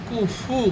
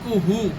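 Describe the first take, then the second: First: The middle consonant is an f sound. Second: The middle consonant is an h sound. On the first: The speaker calls it right. "কাফের পরে ফা রয়েছে" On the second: The speaker calls it wrong. "কুহু নয়"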